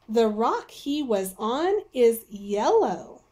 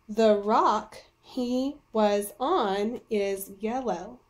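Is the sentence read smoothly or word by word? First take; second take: smoothly; word by word. First: It is read smoothly, like natural talking. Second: It is read slowly, word by word.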